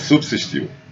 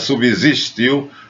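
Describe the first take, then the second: First: The second s sounds like an s. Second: The second s sounds like a z. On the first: The speaker calls it right. "é subsistiu... não tem som de Z, é som de S" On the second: The speaker calls it wrong. "Não é subsistiu, como o editor-chefe do Jornal Nacional diz"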